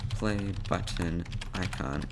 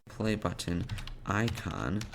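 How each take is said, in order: Both takes have the same delivery.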